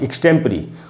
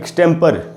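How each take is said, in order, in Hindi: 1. शब्द का अंत pree ध्वनि से होता है। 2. शब्द का अंत per ध्वनि से होता है। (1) "वो वर्ड है एक्सटेम्परी" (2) "उसको लोग अक्सर एक्सटेम्पर या एक्सटेम्पोर ये सब पढ़ लेते हैं"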